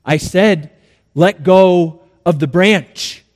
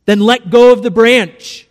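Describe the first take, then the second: First: Slow, deliberate order; measured, patient insistence; insistent repeated command. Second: A louder, slightly raised order; lightly acted voice of authority; commanding voice from above. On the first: Acted. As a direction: spell it out firmly, unhurried. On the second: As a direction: give a firm divine command.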